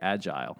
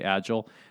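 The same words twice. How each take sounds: First: It is said in a British accent. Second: It is said in an American accent.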